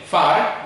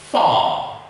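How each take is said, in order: First: The vowel is short and clipped. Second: The vowel is held long and open. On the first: The speaker calls it wrong. "We don't say far" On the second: The speaker calls it right. "we say far"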